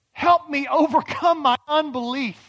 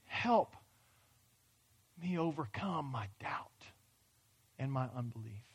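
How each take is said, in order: First: Loud, pleading cry for help; father exclaims. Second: Breathy whisper, much softer; whispered prayer. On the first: Retold or imitated. Father begs Jesus for help, loud and pleading. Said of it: "He exclaimed". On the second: Pretend. A doubter quietly begs God, whispered. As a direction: drop to a broken whisper.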